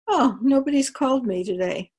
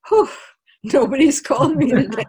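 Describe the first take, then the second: First: It is said in a disappointed, sad tone. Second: It is said in a relieved, happy tone.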